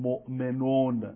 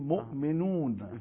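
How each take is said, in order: First: The first vowel sounds like a Persian 'o'. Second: The first vowel sounds like an Arabic 'u'. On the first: The speaker calls it wrong. "تو عربی نمیگیم مثلا مؤمنون" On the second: The speaker calls it right. "میگیم مؤمنون"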